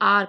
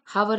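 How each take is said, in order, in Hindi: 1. शब्द की शुरुआत एक स्वर से होती है, h की आवाज़ नहीं है। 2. शब्द की शुरुआत में h की आवाज़ साफ़ सुनाई देती है। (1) "यहाँ पे एच साइलेंट रहता है, इसलिए हम इसे आर पढ़ते हैं" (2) "हावर नहीं पढ़ते हम इसे"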